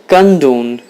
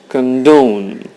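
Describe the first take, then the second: First: The stress is on the first syllable. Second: The stress is on the second syllable. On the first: The speaker calls it wrong. "It's not condone" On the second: The speaker calls it right. "it's condone. You have the stress on the second syllable"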